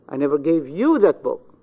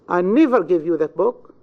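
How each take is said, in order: First: The stress falls on the word you. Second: The stress falls on the word never. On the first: "in the pronoun you" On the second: "In the second, on never"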